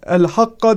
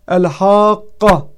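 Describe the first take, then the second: First: The long vowel is cut short. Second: The long vowel is drawn out at length. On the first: The speaker calls it wrong. "El-Hakka değil" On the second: The speaker calls it right. "uzatılarak okunması zorunlu olan bir kelime"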